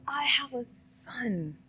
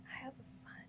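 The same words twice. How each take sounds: First: Said in the usual way. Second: Repeated in a soft whisper; whispered confession about her son. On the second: Real, not acted. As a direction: breathe it out like a confession.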